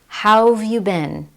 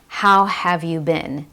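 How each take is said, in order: First: 'How have' is squeezed together into one short 'how've'. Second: Each word, including 'have', is said clearly and separately. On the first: "Instead, how've" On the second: "you don't hear a clear"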